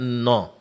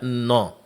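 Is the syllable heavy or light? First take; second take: heavy; heavy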